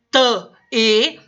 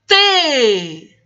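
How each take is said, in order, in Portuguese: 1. A consoante e a vogal são pronunciadas separadamente. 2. A consoante desliza rapidamente para uma vogal sustentada. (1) "ao invés de ficar T-E" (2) "vou passar rapidamente pelo T e vou descansar a minha voz ... na letra E"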